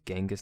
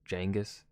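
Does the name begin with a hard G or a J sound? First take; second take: hard G; J. First: The name begins with a hard G sound. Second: The name begins with a J sound. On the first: The speaker calls it right. "seeing the G, it just makes me think of Genghis" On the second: The speaker calls it wrong. "not Jangus"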